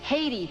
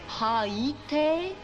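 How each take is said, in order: First: The word is said in a plain, ordinary way. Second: The word is said in an affected, muffled way. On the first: It is the speaker's own pronunciation. The speaker calls it right. "Just plain Haiti" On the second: It imitates someone else's pronunciation. The speaker calls it wrong. "Sounded like he had popcorn stuck to the roof of his mouth"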